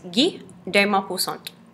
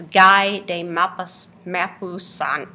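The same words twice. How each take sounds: First: The name is pronounced the French way. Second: The name is read the English way, following spelling. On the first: The speaker calls it right. "But it is French, and it is" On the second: The speaker calls it wrong. "If you look at the spelling of his name, you might think that it's"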